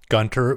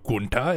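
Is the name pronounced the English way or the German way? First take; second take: English; German. First: The name is said with an English pronunciation. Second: The name is said with a German-like pronunciation.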